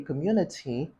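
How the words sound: It is said with a British accent. "Britons say community"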